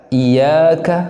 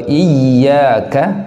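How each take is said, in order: First: The y sound is short and single. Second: The y sound is clearly held doubled. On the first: The speaker calls it wrong. "Jangan kemudian ditakhfif dibaca iyyaka" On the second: The speaker calls it right. "Tasydid pada daripada huruf ya ini harus betul-betul jelas"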